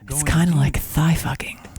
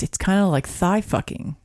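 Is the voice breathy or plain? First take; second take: breathy; plain. First: It is said slower in a breathy voice. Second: It is said at normal speed, plain voice.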